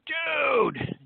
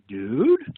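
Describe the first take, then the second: First: It sounds thrilled and excited. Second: It sounds like a question. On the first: The speaker has had great good fortune. "if you just won the Powerball lottery" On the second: The speaker is asking something. "if you were to ask a question"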